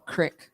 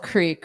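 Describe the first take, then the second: First: The vowel is a short 'i' sound. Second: The vowel is a long 'ee' sound. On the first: This is how someone from another region said it. "what my husband in, in Boston used to call a crick" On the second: This is how the speaker's own community said it. "what we used to call a creek"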